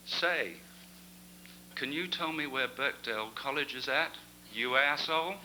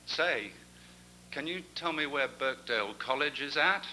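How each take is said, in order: First: American lady's cheeky punchline; a lightly voiced American accent. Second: A hint of an American lady's accent, higher; a lightly voiced American accent. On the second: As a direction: attempt an American tourist asking directions. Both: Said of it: "I can't do this accent either".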